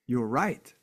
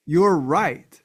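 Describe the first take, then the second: First: Said in the usual way. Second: Louder, higher insistence; emphatic. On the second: Real, not acted. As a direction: drive the point home loudly. Emphatic affirmation to viewers.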